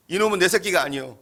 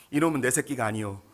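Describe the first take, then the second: First: 이놈은 세게 눌러 말하기; 이놈은을 크게 또박또박. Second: Said in the usual way. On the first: Shown as a demonstration. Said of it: "로암미라는 뜻이에요". (이놈은에 힘을 주어 단호하게) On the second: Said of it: "이름을 뭐라고 지었냐면".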